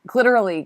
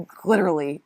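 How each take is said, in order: First: "glitterly" said higher and louder with a falling end; glitterly tried again. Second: Trying out the word "glitterly"; glitterly tried out. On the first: Testing "glitterly" a second time, higher. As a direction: try "glitterly" once more, higher. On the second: Sounding out "glitterly" while doing makeup. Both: Real, not acted. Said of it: "What am I saying?".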